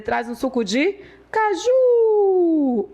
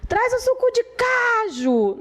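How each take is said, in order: First: High call, "caju" ending in a long held JUUU; stress on caJU. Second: High drawn-out call with "caju" stressed CA-ju; wrong stress on CAju. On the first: Teacher calling for cashew juice, "caju" stressed on long JU. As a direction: call out for it, stretching the last syllable of "caju". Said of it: "É a última sílaba que é a mais forte". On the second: Teacher mimicking a wrong call for juice, "caju" stressed on CA. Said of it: "você não vai dizer". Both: Shown as a demonstration.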